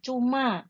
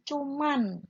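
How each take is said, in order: First: The word ends in an open vowel sound. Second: The word ends with an added n sound. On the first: The speaker calls it right. "Seperti kita mengucapkan cuma" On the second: The speaker calls it wrong. "pakai N. Nah, itu tidak tepat"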